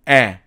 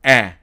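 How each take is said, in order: Both takes have the same delivery.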